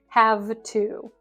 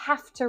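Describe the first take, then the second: First: The word 'have' ends with a V sound. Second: The word 'have' ends with an F sound. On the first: The speaker calls it wrong. "not have to" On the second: The speaker calls it right. "It's not have with this V sound that we've probably all been taught, but half"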